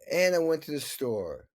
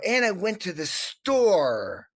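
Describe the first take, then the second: First: The last words fade away and are swallowed. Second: The last words are clearly and fully pronounced. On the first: The speaker calls it wrong. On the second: The speaker calls it right.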